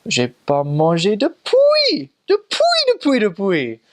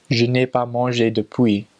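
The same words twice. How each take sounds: First: Imitated Cameroonian French, loud and slow with soaring pitch; Cameroonian French inflection. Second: Said in the usual way. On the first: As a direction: mimic the Cameroonian lilt, swooping high on "depuis". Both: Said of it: "do that little, uh, like, inflection".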